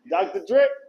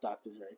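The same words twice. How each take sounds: First: The name is screamed very loudly. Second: The name is said at a normal volume.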